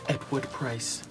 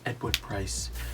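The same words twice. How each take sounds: First: It is said in the speaker's ordinary voice. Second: It is said in a put-on impersonation voice.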